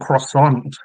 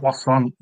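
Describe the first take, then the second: First: It is said with an English-style pronunciation. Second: It is said with a French-style pronunciation. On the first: The speaker calls it wrong. "that's not how you're meant to say it" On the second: The speaker calls it right. "It's like"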